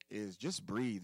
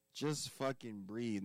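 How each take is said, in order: First: Said in the usual way. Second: Just fucking breathe drawn out slowly and deliberately; urging a listener slowly to just breathe; slow emphatic advice. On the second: Shown as a demonstration. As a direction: lean on every word of Just fucking breathe, taking your time. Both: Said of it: "my third thing I would say".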